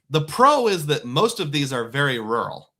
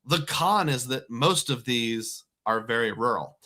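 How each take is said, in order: First: Pro said louder and brighter; stress on pro. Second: Con said lower and flatter; stress on con. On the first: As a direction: lean on pro as the upside. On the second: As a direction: drop the voice on con. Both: Shown as a demonstration.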